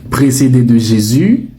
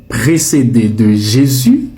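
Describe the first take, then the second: No difference in how they are said.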